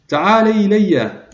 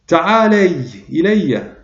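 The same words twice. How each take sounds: First: Slow call, pitched well up, stretched out; the second, higher cry for help; louder call. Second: Slow, raised call across the river; a drawn-out cry for help. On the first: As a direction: cry out again higher, pleading from afar. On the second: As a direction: call out to her slowly, a little higher. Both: A narrator's reading. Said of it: "وصاح بأعلى صوته".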